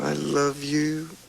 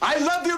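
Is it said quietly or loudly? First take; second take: quietly; loudly. First: It is said quietly. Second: It is said loudly.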